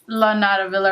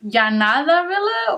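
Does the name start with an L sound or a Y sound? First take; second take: L sound; Y sound. First: The double L is said like an L sound. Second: The double L is said like a Y sound. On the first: It follows the English reading of the name. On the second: It follows the Spanish reading of the name.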